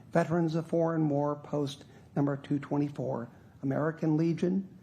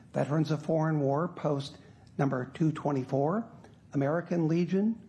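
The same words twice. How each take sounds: No difference in how they are said.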